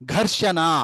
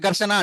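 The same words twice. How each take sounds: First: The first consonant is an aspirated gh. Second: The first consonant is a plain unaspirated g. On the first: The speaker calls it right. "హెచ్చు పెట్టినావు అనుకో" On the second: The speaker calls it wrong. "ఇది ఒకటే రాసినావు, వాడికి తెలీదు"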